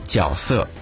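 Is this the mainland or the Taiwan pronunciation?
Taiwan. It uses the Taiwan reading of the first syllable. "在台湾呢会被读为角色"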